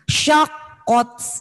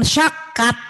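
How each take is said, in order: First: The vowel before the final t sounds like 'o'. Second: The vowel before the final t sounds like 'a'. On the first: The speaker calls it right. "Nah ini syakot ya" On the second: The speaker calls it wrong. "jangan syakat"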